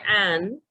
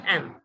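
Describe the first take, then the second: First: The vowel is full and clearly pronounced. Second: The vowel is short and weak. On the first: The speaker calls it wrong. "we don't say an" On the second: The speaker calls it right. "In speech, we say am"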